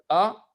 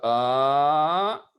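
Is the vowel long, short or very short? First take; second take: short; long. First: The vowel is held briefly. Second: The vowel is held long. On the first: "des voyelles qui sont prononcées de manière courte" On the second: "des voyelles longues qui sont prononcées de manière longue"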